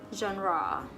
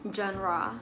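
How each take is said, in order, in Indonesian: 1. Kata itu diucapkan dengan pelafalan Inggris. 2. Kata itu diucapkan dengan pelafalan Inggris.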